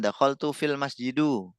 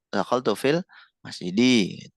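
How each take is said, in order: First: The last word ends with an u vowel. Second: The last word ends with an i vowel. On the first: The speaker calls it wrong. "Oh salah" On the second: The speaker calls it right. "yang benar"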